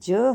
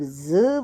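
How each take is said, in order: First: The tongue touches the palate for the consonant. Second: The tongue stays low, giving a buzzing consonant. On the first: "हमारी जीभ जो है तालु के साथ स्पर्श करती है" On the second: "तालु को छूते छूते ये नीचे ही रहती है"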